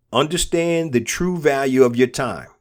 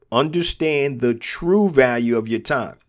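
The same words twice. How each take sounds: The two takes are said the same way.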